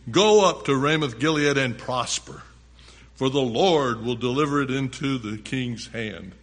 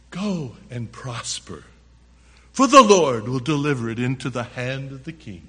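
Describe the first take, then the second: First: Said in the usual way. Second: Sarcastic prophet parroting good news. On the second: Acted. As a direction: say it as hollow, sarcastic encouragement. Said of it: "Very sarcastically, probably".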